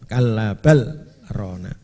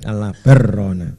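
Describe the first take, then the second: First: A brief pause separates bal from rana. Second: The l merges into the r without pause. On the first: The speaker calls it right. "supaya idhar harus dibaca saktah" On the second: The speaker calls it wrong. "Kalau tidak idhar jadinya kalabar rona"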